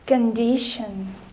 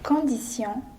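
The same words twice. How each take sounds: First: The word is said with an English pronunciation. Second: The word is said with a French pronunciation. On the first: "All English words that end with D I O N" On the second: "Whereas in French, we pronounce them as"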